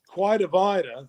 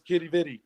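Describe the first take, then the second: First: It is pronounced with a kw sound at the start. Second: It is pronounced with a k sound, like kitty. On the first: This is the name as written. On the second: This is the local Newfoundland way of saying it.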